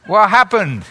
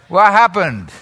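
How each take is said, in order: Both takes have the same delivery.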